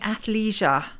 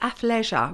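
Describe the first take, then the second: First: It is said with an American pronunciation. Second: It is said with a British pronunciation. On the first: The speaker calls it wrong. "They were saying athleisure. Uh, we're not American" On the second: The speaker calls it right. "It's athleisure"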